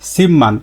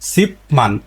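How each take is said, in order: First: The first syllable ends with an m sound. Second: The first syllable ends with a p sound. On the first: The speaker calls it right. "কিন্তু এর সঠিক উচ্চারণ হচ্ছে সিম্মান" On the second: The speaker calls it wrong. "এর স্বাভাবিক উচ্চারণ কি? সিপমান"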